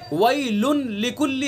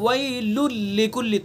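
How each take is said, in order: First: The final n is pronounced clearly before the l. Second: The final n is silent, merged fully into the l. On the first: This is the underlying form before the rule applies. "वैलुन लिकुल्ली है असल" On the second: This is the form after full assimilation. "तनवीन ख़त्म हो जाएगी, साइलेंट हो जाएगी बिल्कुल"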